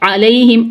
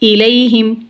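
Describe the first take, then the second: First: The word begins with an 'a' vowel. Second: The word begins with an 'i' vowel. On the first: The speaker calls it right. "सही कलिमा है अलैहिम आइन के ऊपर फतहा" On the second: The speaker calls it wrong. "आइन के नीचे कसरा लगा दें इलैहिम यहाँ पे हरकत की गलती हो गई"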